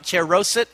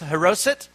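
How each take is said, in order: First: The word begins with a 'ch' sound. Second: The word begins with an 'h' sound. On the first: The speaker calls it wrong. "It's not cheroset, as we say it here in Texas" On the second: The speaker calls it right. "You don't pronounce the CH"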